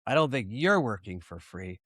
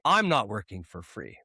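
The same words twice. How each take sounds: First: Emphatic you're, rest of the line dropping; stress on YOU'RE. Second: Emphatic I'm, rest of the line dropping; stress on I'M. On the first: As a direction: lean on the word you're. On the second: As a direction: lean hard on the word I'm. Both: Real, not acted. Contrasts who works for free.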